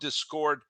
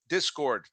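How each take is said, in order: First: The stress falls on an unexpected syllable. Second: The stress falls on the expected syllable. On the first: The speaker calls it wrong. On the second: The speaker calls it right.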